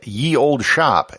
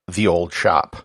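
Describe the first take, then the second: First: The first word begins with a y sound. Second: The first word begins with a th sound. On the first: The speaker calls it wrong. "a sign which says ye old shop" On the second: The speaker calls it right. "should really be pronounced the old shop"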